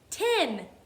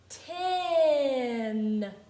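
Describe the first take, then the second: First: The word is said at normal speed. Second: The word is said slowly and stretched out.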